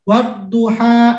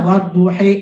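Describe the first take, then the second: First: The word ends with an open 'a' vowel. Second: The word ends with an 'e' vowel.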